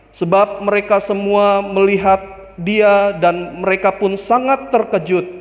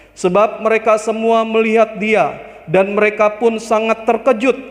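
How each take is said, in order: No difference in how they are said.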